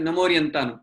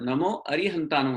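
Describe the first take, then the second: First: The vowel after namo is swallowed, words run together. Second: The vowel after namo is kept, words said separately. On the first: The speaker calls it wrong. "गड़बड़ में हम क्या कहते हैं" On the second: The speaker calls it right. "नमो अरिहंतानु होता है"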